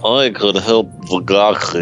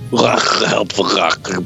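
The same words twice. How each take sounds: First: It is said in his normal reading voice. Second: It is said in a gravelly Doctor Claw voice.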